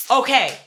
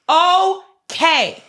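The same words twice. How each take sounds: First: Curt exasperation. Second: Okay stretched out, high and loud; drawn-out exasperated OKAY. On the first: Exasperated repeat after mom's explanation. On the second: Daughter reacting to mom's excuse, Okay loud and drawn out. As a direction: split Okay into two loud, long beats. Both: Real, not acted.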